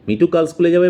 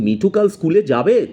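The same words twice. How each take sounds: First: The tune sounds like a firm, certain statement. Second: The tune sounds doubtful, like an open question. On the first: He will definitely go to school tomorrow. "মানে মিঠু কাল স্কুলে যাবেই" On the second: He may or may not go to school tomorrow. "তার মানে মিঠু কাল স্কুলে যেতেও পারে, নাও যেতে পারে"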